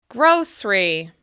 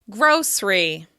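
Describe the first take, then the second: No difference in how they are said.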